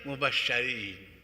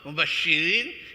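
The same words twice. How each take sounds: First: The vowel after the sh sound is a. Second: The vowel after the sh sound is i. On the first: Those who receive good news. "Berarti mubasyirin" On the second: Those who give good news. "Kalau shinnya kasroh"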